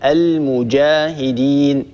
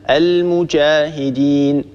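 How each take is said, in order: First: المجاهدين slowly, with a voiced hard j; المجاهدين drawn out, pure j without sh; correct jim. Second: المجاهدين with a ch-like, sh-tinged ج; المجاهدين said as al-muchahidin; jim mixed with shin. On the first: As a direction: voice the ج firmly in المجاهدين. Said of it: "الصواب المجاهدين". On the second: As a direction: blend ش into the ج of المجاهدين. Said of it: "خلط صوت الجيم بالشين". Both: Shown as a demonstration.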